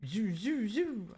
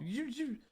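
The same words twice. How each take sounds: First: Playful whooshing toy sound; dad's toy noise. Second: High soft zoo zoo; light whooshing toy sound; toy whoosh noise. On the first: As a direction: mimic dad's toy demo. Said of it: "He goes, "This is how you use it". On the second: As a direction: mimic the toy flying up. Mimicking toy sound effect. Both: Retold or imitated.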